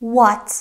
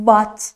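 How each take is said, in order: First: "what" said the correct way, as a model; right pronunciation. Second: "what" said the wrong way, as a learner error; wrong pronunciation. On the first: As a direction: show the proper "what". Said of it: "باید بگیم what". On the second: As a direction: show the mistaken "what". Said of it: "نباید بگیم what". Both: Shown as a demonstration.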